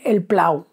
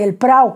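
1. La p va seguida de un sonido l. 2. La p va seguida de un sonido r. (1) "pues decían el plau" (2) "el prau, que es una pradera"

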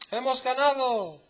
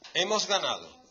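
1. Se dice como una exclamación emocionada y llena de emoción. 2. Se dice como una afirmación tranquila y neutra.

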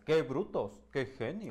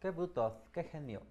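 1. La forma de hablar es feroz y combativa. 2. La forma de hablar es suave y relajada. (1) "Y ahora es" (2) "en su voz anterior hubiera sido"

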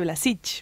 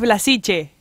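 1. El nombre termina en consonante, sin vocal. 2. El nombre termina en una vocal breve. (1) "él me dice Blasich" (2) "yo le digo es Blasiche"

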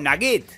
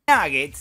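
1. El acento está en la última sílaba. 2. El acento está en la primera sílaba. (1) "sí va a rimar si yo digo nugget" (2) "se acentúa en la A"

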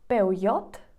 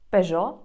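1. Вимовляється на іспанський манер. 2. Вимовляється на український манер. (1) "Іспанці скажуть два варіанти" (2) "називається українською Peugeot"

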